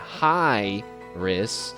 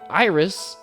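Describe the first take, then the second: First: The name begins with an H sound. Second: The name begins directly with a vowel sound. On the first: The name is a joke on saying hi. The speaker calls it right. "there's an H there" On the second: The joke in the name is missed. The speaker calls it wrong. "she said it in a weird way"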